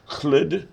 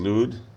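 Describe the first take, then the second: First: The name is said with a Welsh-style opening sound. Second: The name is said with a plain English L.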